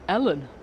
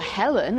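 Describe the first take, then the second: First: The name starts without an h sound. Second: The name starts with an h sound. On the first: "it's Ellen" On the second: "it's never Helen"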